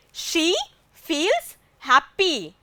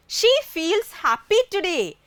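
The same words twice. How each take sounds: First: Slow, spaced-out example sentence; slow repetition. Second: Said in the usual way. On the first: Shown as a demonstration. Teacher repeating an example for the class, slow and deliberate. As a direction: say it slowly, word by word.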